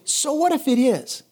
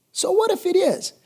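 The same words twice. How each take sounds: First: So what if it is, plain first ask; rhetorical challenge. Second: "So what if it is?" pitched high and emphatic on "what"; defiant repeat. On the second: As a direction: throw "So what if it is?" up high, defying fear. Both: Shown as a demonstration.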